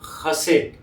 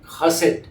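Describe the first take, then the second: First: It begins with a throaty 'kh' sound. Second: It begins with a throaty 'kh' sound.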